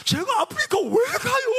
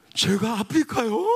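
First: Mock shriek, pitched very high; Donghwan's wailing protest. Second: Drawn-out, lightly imitated disbelief; Donghwan's startled question. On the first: Young man protests being sent to Africa, hammed-up wail. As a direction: imitate a whining, high-pitched cry of protest. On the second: Young man questions pastor's plan to take him, mildly startled. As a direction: question it slowly, mildly taken aback. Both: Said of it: "제가 똑같이 흉내낼게요".

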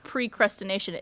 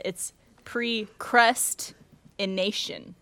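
First: Said in the usual way. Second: Precrustination drawn out very slowly, every syllable clear; slow careful correction. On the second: Shown as a demonstration. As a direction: spell out precrustination slowly as the right word. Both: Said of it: "so it's not".

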